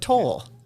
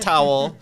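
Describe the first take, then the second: First: The name sounds like the word toll. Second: The name sounds like the word towel. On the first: The speaker calls it right. "but toll" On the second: The speaker calls it wrong. "Not towel"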